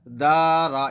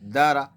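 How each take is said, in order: First: The vowels are drawn out long. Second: The vowels are kept short. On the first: The speaker calls it wrong. "ये गलत हो जाएगा" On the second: The speaker calls it right. "सही क्या रहेगा"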